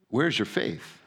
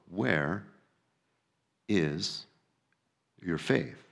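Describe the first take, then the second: First: It is said at a normal pace. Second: It is said slowly.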